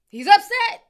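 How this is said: It is said in an imitated put-on voice.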